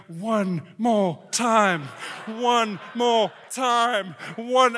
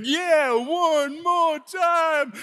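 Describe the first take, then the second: First: Slow, measured chanting; crowd chant. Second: High, very drawn-out whoop; rowdy cheering rider. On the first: Riders begging the operator for another go, slow chant. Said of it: "all those people on that ride started going". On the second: Guy in the front urging another ride, high drawn-out cheer. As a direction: stretch it out high like an egging-on fan. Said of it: "the guy in the front's going". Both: Retold or imitated.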